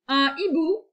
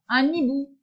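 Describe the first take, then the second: First: Un and hibou are said separately, without linking. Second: The n of un links into hibou. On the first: The speaker calls it right. "avec hibou, je ne fais pas la liaison" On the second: The speaker calls it wrong. "Non, ça ne se dit pas"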